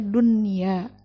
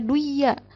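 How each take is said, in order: First: The n is clearly pronounced before y. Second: The n merges into the following y. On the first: The speaker calls it right. "tapi harus dibacanya dunya" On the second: The speaker calls it wrong. "ini nggak boleh dibaca duya"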